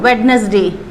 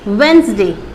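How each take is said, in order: First: The d is sounded in the word. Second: The d is silent in the word. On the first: The speaker calls it wrong. "कई लोग इसको वेडनेसडे बोलते हैं ना" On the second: The speaker calls it right. "डी को जो अगर आप साइलेंट रखेंगे तो आपकी प्रोनाउंसिएशन करेक्ट आएगी"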